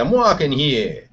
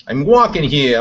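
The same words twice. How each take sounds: First: Put-on New York accent. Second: Loud New York cabbie shout; New York accent. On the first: Slower New York accent, repeating the line at the driver. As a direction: drag out the New York complaint. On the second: Acted. Loud New York shout at a passing driver. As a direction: yell it like a New Yorker in traffic. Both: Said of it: "New York accent".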